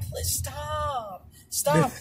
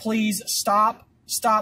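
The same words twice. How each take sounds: First: It is said in a playful, flirty way. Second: It is read out in a flat, formal way.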